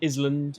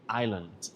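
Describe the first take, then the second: First: The S sound is pronounced in the middle. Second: The S is silent, with no S sound. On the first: The speaker calls it wrong. "We don't say Island" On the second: The speaker calls it right. "We say island. It's a silent S"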